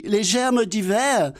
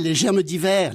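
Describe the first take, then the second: First: Higher, slow puzzled naive voice on "les germes d'hiver"; Laurel mishearing. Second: Said in the usual way. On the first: Acted. (Laurel répète lentement « les germes d'hiver », voix aiguë et naïve) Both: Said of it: "Dialogue imaginaire entre Laurel et Hardy".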